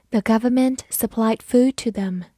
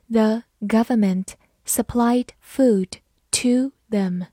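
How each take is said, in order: First: Said in the usual way. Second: Slow, careful word-by-word reading. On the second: Shown as a demonstration. Teacher reading the second sentence slowly for students. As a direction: read it slowly so students can follow. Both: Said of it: "第二句我们也慢读一遍。".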